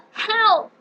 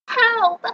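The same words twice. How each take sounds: First: Very high sobbing scream; crying for help. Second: Very high, loud scream; cry for help. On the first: Trapped girl calling for rescue, high crying scream. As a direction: wail for help. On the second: Trapped girl calling for rescue, high loud scream. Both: Acted.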